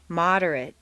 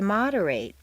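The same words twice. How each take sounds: First: The last syllable has a weak reduced vowel. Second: The last syllable has a full 'ay' vowel. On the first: It is used as a noun or adjective. "completely reduced to mt" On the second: It is used as a verb. "a full a sound"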